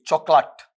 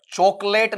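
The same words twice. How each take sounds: First: चॉकलेट with a short "lat" ending; correct pronunciation. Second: चॉकलेट ending in a long "layt"; wrong pronunciation. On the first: Teacher showing the right form, चॉकलेट ending in short "lut". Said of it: "उच्चारण है बेटा ऐसा आएगा". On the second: Teacher rejecting the usual reading, चॉकलेट with "layt". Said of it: "चॉकलेट नहीं होता है". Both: Shown as a demonstration.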